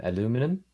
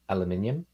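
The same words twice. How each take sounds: First: "aluminum" in four syllables, a-LOO-mi-num; American pronunciation. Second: "aluminium" in five syllables, al-yoo-MIN-ee-um; New Zealand pronunciation. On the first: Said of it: "you guys would say". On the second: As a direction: say "aluminium" with the stress on MIN and an extra "i". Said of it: "we say words like". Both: Shown as a demonstration.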